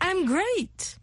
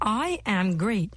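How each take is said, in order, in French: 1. Les mots I am se fondent en I'm. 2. Les mots I am se prononcent en entier, séparément. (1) "C'est la contraction" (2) "la contraction de « I am great »"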